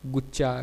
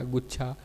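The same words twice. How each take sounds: First: गुच्छा said "guccha" with unbreathed ch; no puff of air in गुच्छा; deaspirated dialect form. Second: Said in the usual way. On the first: Shown as a demonstration. Lecturer showing Kauravi speech, गुच्छा without aspiration. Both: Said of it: "महाप्राण के अल्पप्राण कर देने".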